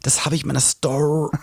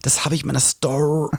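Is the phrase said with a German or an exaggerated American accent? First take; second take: American; American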